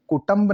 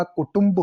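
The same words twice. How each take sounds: First: कुटुंब with "tamb" for "tumb"; mispronounced कुटुंब. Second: Said in the usual way. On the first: Shown as a demonstration. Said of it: "कुटुंब नहीं होता". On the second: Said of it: "कुटुंब होता है".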